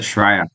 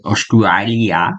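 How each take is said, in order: First: It is said in the local Australian pronunciation. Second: It is said in a non-Australian pronunciation. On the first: The speaker calls it right. "We pronounce it Australia" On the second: The speaker calls it wrong. "we don't pronounce it Australia"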